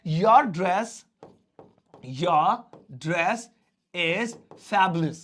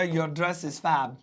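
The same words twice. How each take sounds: First: Said in the usual way. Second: Your dress is fab stretched word by word, fab landing last; teacher slowly showing the short form fab to students; very slow model line. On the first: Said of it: "तो पहले मैं बोल रहा था". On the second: Shown as a demonstration. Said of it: "लेकिन अब मैं बोलूंगा".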